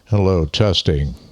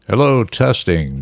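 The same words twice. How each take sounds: First: The voice sounds processed, with a deep tone. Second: The voice sounds raw, with no processing. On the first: "with processing, EQing, stuff like that" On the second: "this is without processing"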